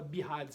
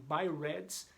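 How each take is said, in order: First: The word is said with a Brazilian-style pronunciation. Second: The word is said with an English-style pronunciation. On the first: This is how everyone locally says the term. "no Brasil nós abrasileiramos e todo mundo fala BIHADS" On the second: This is the original form of the term. "a palavra correta seria falada em BIRADS"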